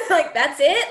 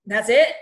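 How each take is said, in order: First: "that's it?" said again, higher and louder through a laugh; laughing repeat. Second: A loud, disbelieving "That's it?"; incredulous. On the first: Real, not acted. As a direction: echo your own disbelief while laughing. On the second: Retold or imitated. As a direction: fire the question back in disbelief. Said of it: "And I'm like".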